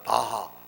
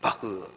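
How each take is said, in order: First: The name ends with a clear 'ha' sound. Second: The name ends with a short 'heu' sound. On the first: The speaker calls it wrong. "바하라 그러면 안 되고" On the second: The speaker calls it right. "바흐 이렇게 불러요. 본토 발음대로"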